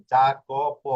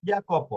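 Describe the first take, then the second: First: জাকোপ begun with a hard English j sound; English-style j opening জাকোপ; J pronunciation. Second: Italian j as y in ইয়াকোপ; Y pronunciation. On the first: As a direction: say জাকোপ with j as in "jam". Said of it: "চিন্তা করেন যে এটা হবে যা". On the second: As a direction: say ইয়াকোপ with y as in "yard". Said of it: "কিন্তু এটা হয়েছে কি?". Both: Shown as a demonstration.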